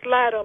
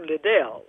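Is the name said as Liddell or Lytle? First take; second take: Lytle; Liddell. First: The name is pronounced as Lytle. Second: The name is pronounced as Liddell. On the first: The caller only knew the name from paper. The speaker calls it wrong. "was trying to do the pronunciation, which was inaccurate" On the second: This is how the name's owner says it. The speaker calls it right. "Scottish Liddell and not Lytle"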